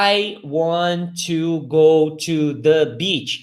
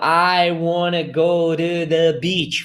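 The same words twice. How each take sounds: First: "want to" slow, said as two separate words; each word of "I want to go to the beach" kept apart; unlinked careful English. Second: "want to" run together as "wanna", slow; "wanna" as one word, sounds joined; linked sounds. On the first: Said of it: "esses sons que se conectam". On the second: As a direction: link "wanna go to the beach" into one slow, connected flow. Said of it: "Fica assim, entendeu?". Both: Shown as a demonstration.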